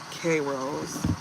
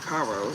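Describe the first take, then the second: First: The name sounds like 'kay-rose'. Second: The name sounds like 'kye-ross'. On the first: The speaker calls it wrong. "my bad, Kairos, not K Rose" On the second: The speaker calls it right. "Kairos, not K Rose"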